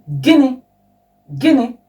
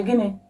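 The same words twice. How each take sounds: First: Sharp, higher and louder indignant "Gịnị? Gịnị?"; offended retort, louder and higher; displeased. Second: Puzzled question. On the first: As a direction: snap it back at someone who annoyed you. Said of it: "something that you're not happy about". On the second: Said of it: "if you fail to hear what the other person said". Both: Shown as a demonstration.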